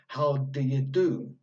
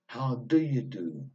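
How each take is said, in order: First: The small words are shortened with weak vowels. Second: The same.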